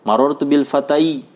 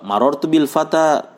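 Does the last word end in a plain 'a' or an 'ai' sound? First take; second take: ai; plain a. First: The last word ends with an added 'i' sound. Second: The last word ends in a plain 'a'. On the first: The speaker calls it wrong. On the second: The speaker calls it right.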